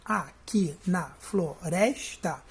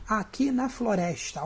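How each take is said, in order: First: "Aqui na floresta" slowly, a-qui-na-flo-res-ta in separate beats; syllable by syllable. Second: Said in the usual way. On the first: Shown as a demonstration. Teacher scanning the first verse, "Aqui na floresta" split into syllables. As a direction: count out "Aqui na floresta" with a gap after each syllable. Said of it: "eu vou contar até o rés". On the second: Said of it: "o primeiro verso".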